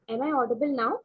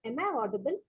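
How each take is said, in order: First: Speaking up clearly; louder. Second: Faint, soft-spoken question; barely audible, low volume; too quiet. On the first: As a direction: raise the voice to be heard. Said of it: "Yes, much better". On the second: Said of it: "Your voice is very low". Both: Real, not acted.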